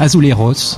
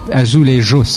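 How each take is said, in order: First: The word is pronounced the Spanish way. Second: The word is pronounced the Portuguese way. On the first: The speaker calls it wrong. "On dit pas ... C'est espagnol" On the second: The speaker calls it right. "on dit bien parce que c'est portugais"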